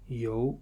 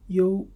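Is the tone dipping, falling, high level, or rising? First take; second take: rising; high level. First: The tone rises from middle to high. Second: The tone stays high and level.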